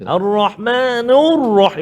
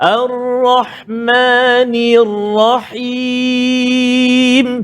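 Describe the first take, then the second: First: The vowel after the n sounds like 'u'. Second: The vowel after the n sounds like 'i'. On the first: The speaker calls it wrong. "ni tu kadang-kadang dia bunyi macam nu" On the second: The speaker calls it right. "Tafkhim, tebal ra"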